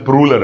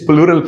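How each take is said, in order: First: The word begins with a 'pr' sound. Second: The word begins with a 'pl' sound. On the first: The speaker calls it wrong. "Some people is pronouncing प्रूलर" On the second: The speaker calls it right. "It's not प्रूलर, it's प्लूरल form"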